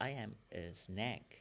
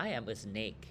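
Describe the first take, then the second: First: "snake" slipping into "snack", with a short open vowel; mispronounced snake. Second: "snake" with a long ay vowel, unlike "snack"; corrected snake. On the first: Real, not acted. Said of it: "เหมือน snack เนาะ snack เป็นอาหารว่าง ขอโทษ". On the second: Shown as a demonstration. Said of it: "อาจารย์บางเทื่อก็ลงกับ snake".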